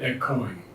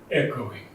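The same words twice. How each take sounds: First: The stress is not on the first syllable. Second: The stress is on the first syllable. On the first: The speaker calls it wrong. "Not echoing" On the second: The speaker calls it right. "The accent is on the first syllable"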